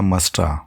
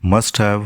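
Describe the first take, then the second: First: The word 'have' shrinks to a weak 'a'. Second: The word 'have' is said in full.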